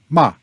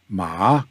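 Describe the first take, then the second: First: The pitch falls sharply from high to low. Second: The pitch rises from middle to high. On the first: The word is a curse. "And ma is a curse" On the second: The word means a material like cotton. "Ma is material like cotton"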